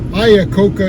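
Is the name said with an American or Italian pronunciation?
American. The name is said with an American English pronunciation. "Iacocca is an American pronunciation of that word"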